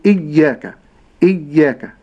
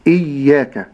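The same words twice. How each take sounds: First: إياك with the ya pressed hard and heavy; wrong heavy ya. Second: إياك with a soft, light doubled ya; correct soft ya. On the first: Teacher imitates the common mistake, ya pressed hard. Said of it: "يقرأ الياء بالشدة". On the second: Teacher gives the correct إياك, ya soft and gentle. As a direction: let the ya in إياك stay gentle. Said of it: "ولكن". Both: Shown as a demonstration.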